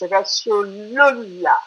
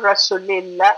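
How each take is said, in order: First: The vowel before the final syllable sounds like 'oo'. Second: The vowel before the final syllable sounds like 'ee'. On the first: The speaker calls it right. "all the sounds are you sounds" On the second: The speaker calls it wrong. "It's not Rasulillah"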